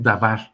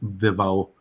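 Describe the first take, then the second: First: The word ends with a clear R sound. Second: The word ends in an open vowel, no R. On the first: This is how Spanish speakers read it. The speaker calls it wrong. "no es Dabar, así lo leemos nosotros" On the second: This is closest to the Hebrew pronunciation. The speaker calls it right. "como si fuera una D con apóstrofe, y es Devao"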